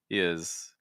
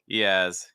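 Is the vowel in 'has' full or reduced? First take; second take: reduced; full. First: The vowel in has is reduced to a schwa. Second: The vowel in has is a full ah. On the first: The speaker calls it wrong. "He is like kind of like that" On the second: The speaker calls it right. "I would keep the ah"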